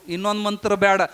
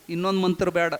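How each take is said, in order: Both takes have the same delivery.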